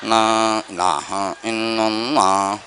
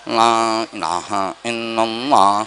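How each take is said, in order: Both takes have the same delivery.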